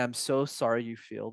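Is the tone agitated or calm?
calm. The voice sounds calm and steady, with a lowered tone. The other person calms down. The speaker calls it right. "because I'm managing my vocal tones"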